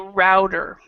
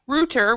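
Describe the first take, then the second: First: It is said in an American accent. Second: It is said in a British accent. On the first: "American English we will say router" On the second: "which is more more the British way"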